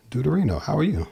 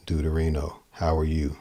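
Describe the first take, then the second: First: DEUTERINO and YOU swoop up high, then drop sharply; lively, swooping inflection. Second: DEUTERINO, HOW ARE YOU kept low and even, like a statement; low, level statement tune. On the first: Teacher showing a player how accenting changes a line, high swooping inflection. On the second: Teacher showing a player how inflection changes a line, low level delivery. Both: Shown as a demonstration. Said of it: "my inflection, my accents".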